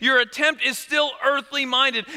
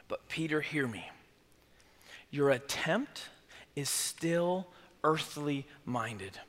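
First: Said in the usual way. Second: Soft, low and slow, leaning in; hushed earnest Jesus. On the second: Acted. Jesus quietly correcting Peter, low and slow. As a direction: draw him close and say it softly.

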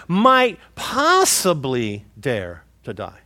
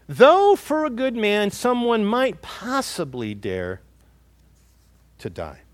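First: Might possibly dare to die said slowly, might leaned on; stress on might possibly. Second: Said in the usual way. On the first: Shown as a demonstration. Pastor pointing out Paul's wording, slow stress on might possibly. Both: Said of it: "Notice the words there that Paul uses".

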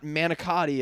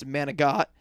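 First: Manicotti with all four syllables; standard pronunciation. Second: Manigot with a G and no final vowel; manigot, the Italian American way; family dialect pronunciation. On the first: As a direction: say manicotti in full, ending in -ee. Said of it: "it's not manicotti". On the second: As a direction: cut manicotti down to manigot, ending on -got. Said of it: "it's manigot". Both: Shown as a demonstration.

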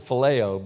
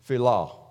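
First: "phileo" said with three syllables, fuh-LAY-oh; usual pronunciation. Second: "philo" said as fee-LAH; two syllables in "philo", ending on an open ah; software's pronunciation. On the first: Preacher gives his habitual Greek pronunciation, "phileo" as fuh-LAY-oh. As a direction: stress the middle of "phileo", ending on oh. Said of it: "I always pronounce it phileo". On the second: Preacher quotes the software's Greek, "philo" as fee-LAH. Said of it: "it says philo". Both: Shown as a demonstration.

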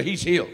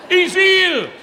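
First: Said in the usual way. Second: "He's healed" high and loud; declaring victory to the crowd; triumphant shout. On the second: Shown as a demonstration. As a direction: proclaim it triumphantly. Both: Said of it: "That's English for".

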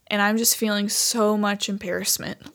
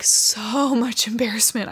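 First: Said in the usual way. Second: Laughing through the words, slowed down. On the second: Real, not acted. Telling viewers about her embarrassment, laughing. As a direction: let a real embarrassed laugh break in.

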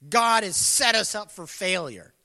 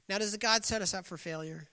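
First: Louder, accusing outburst; voiced as a loud complaint; indignant complaint. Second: Said in the usual way. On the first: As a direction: throw the blame out loudly. Acting out Israel's complaint.

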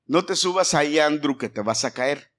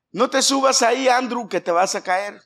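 First: Said in the usual way. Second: Put-on higher, louder call to the toddler; louder warning. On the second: Shown as a demonstration. Parent warning toddler Andrew not to climb, raised voice. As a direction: warn him sharply from across the room. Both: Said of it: "Vamos a agarrar a Andrew".

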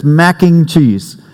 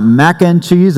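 First: Mac and cheese said slowly, and stressed. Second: Said in the usual way. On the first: Shown as a demonstration. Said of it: "it's mac and cheese". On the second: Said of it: "It's not mac and cheese".

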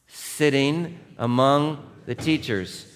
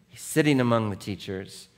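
First: Slow, with among hit hard; weighty words. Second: Said in the usual way. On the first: Shown as a demonstration. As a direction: drag out "sitting among the teachers" word by word. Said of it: "First word". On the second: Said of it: "That's the rabbis".

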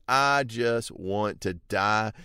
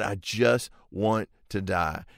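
First: Slow, faint wish to die; weary despair. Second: Slow, bitter death wish after the rage; angry end of outburst. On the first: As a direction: sigh it out as if about to faint. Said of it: "He's about to faint". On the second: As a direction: spit it out bitterly after exploding. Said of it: "And he just explodes". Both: Retold or imitated.

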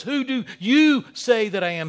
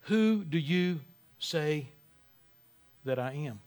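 First: Emphatic Who do you say that I am; emphatic question. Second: Slow and softer, each word weighed; drawn-out quiet challenge; slow, hushed question. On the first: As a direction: stress on you, pressing and louder. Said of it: "He's emphatic in saying that". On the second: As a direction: let the question hang, quietly. Repeats the question, slowed. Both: Shown as a demonstration.

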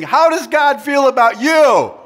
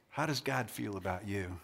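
First: High, very loud crowd question; rousing shout. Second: Low, very soft, sober asking; hushed question. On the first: Preacher demanding the crowd's yay or boo, rousing shout. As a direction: shout it out for a big response. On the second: Preacher asking crowd about doubting God, hushed question. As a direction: drop right down and ask it softly. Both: Real, not acted.

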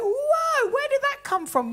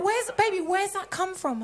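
First: High, loud mock shock; exaggerated husband's protest, pitched way up; imitated startled challenge. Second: Coaxing husband, slightly raised pitch; imitated gentle query. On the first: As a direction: call out a surprising remark in high voice. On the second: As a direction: ask a partner kindly. Husband's gentler version of the question.

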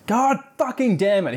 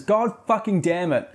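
First: Mock outburst. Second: A touch of exasperation, slightly raised; milder mock curse. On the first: Jack storms off at the party with a hammed-up curse. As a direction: blurt it like a furious kid losing it. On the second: Narrator repeats the boy's curse from the book, mildly exasperated. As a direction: repeat the curse with amused disbelief. Outburst quoted again.

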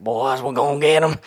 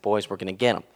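First: Put-on higher, louder old coach rallying the boys; fired-up older coach. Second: Said in the usual way. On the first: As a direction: imitate an older man getting fired up. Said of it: "fired up, he's an older man". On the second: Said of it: "and he's like".

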